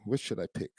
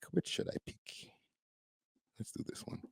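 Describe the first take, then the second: First: Said in the usual way. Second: Breathy aside, barely voiced; murmured under the breath while choosing; whispered. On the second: Real, not acted. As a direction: whisper the question to yourself. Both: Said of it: "muttering while choosing a clip".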